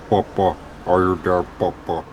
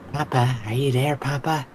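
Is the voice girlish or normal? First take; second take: normal; girlish. First: It is said in the speaker's normal voice. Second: It is said in a little girl's voice. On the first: The speaker calls it wrong. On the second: The speaker calls it right.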